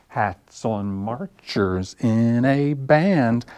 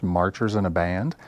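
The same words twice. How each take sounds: First: Slow, stretched sing-song chant; rhyme recital. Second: Said in the usual way. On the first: Acted. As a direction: draw out each beat for little kids. Same words recited in the rhyme.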